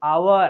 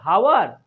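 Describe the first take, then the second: First: The word begins with a vowel sound. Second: The word begins with an h sound. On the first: The speaker calls it right. "यहाँ पर एक silent रहेगा" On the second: The speaker calls it wrong. "हावर नहीं"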